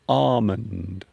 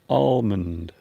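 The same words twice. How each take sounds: First: The L sound is silent. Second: The L sound is clearly pronounced. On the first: "they might not pronounce the L" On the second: "They will pronounce the letter L"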